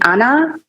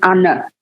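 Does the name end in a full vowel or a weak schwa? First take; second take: full vowel; weak schwa. First: The name ends in a full 'ah' vowel. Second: The name ends in a weak schwa vowel.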